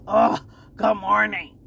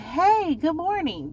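First: The greeting sounds annoyed and irritated. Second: The greeting sounds friendly and cheerful.

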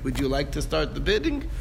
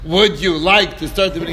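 First: The question is asked in a gentle, courteous tone. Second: The question is asked in a firm, pressing tone. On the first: It is offered as a courtesy. "we give him the opportunity to do it with our asking nicely" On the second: It is really a demand he must obey. "You can start changing the tone"

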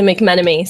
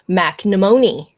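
First: The name is said as McMenemy. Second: The name is said as McNemony. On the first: The speaker calls it right. "you're talking to McMenemy" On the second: The speaker calls it wrong. "they said McNemony"

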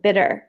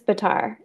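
First: The name sounds like the word bitter. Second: The name rhymes with the word guitar. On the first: The speaker calls it wrong. "The other way to pronounce it is like, it's like bitter. And it's not that" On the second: The speaker calls it right. "Yes, it's Bitar"

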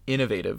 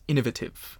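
First: It is said in the speaker's own American accent. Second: It is said imitating the professor's British accent.

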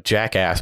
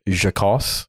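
First: It is said with a plain English pronunciation. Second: It is said with a French-sounding pronunciation.

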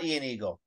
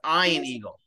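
First: The name Ian begins with an 'ee' sound. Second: The name Ian begins with an 'eye' sound. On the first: The speaker calls it wrong. "It's not Ian Eagle" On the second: The speaker calls it right. "It's Ian Eagle"

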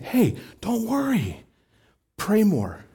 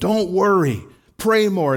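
First: It is said in a gentle, inviting tone. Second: It is said in a scolding, finger-wagging tone.

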